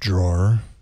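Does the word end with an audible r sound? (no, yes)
yes. The word ends with an audible r sound.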